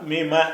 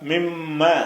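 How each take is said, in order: First: The middle m sound is short and single. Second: The middle m sound is held and doubled. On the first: The speaker calls it wrong. "அந்த சத்து இல்லை என்று சொன்னால் மிம" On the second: The speaker calls it right. "சத்து இருந்தால் மிம்ம"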